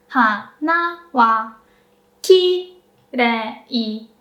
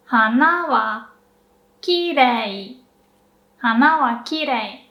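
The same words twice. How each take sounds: First: "Hana wa kirei" going up and down strongly; slow, exaggerated "Hana wa kirei"; exaggerated pitch accent. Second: "hana wa kirei" at normal speed, gentler ups and downs; natural pitch accent. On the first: Teacher exaggerating the pitch of hana wa kirei. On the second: Teacher giving the natural version after the exaggerated one. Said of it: "exaggerated, but". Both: Shown as a demonstration.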